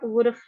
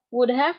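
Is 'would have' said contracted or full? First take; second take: contracted; full. First: The two words are shortened into one syllable. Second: Both words are said fully and separately.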